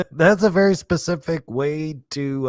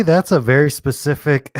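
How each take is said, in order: First: Words broken up by real laughter; laughing through it. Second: Said in the usual way. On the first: Real, not acted. Streamer cracking up at a movie line, laughing. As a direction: laugh as you say it again.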